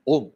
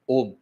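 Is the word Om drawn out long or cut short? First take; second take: short; long. First: The word is said short and quick. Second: The vowel is drawn out long. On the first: The speaker calls it wrong. "ऐसे नहीं बोलना है" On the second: The speaker calls it right. "किस तरह से उसको लंबाते"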